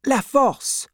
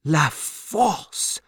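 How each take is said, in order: First: Very high, quick-coming reply; anxious answer. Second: Stunned echo with a rise; shocked repetition. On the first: Wife names husband's prison to banker, anxiously. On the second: Banker echoes the prison's name, shocked. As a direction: repeat it in disbelief. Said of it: "repeated Mister Lorry, shocked". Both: A narrator's reading.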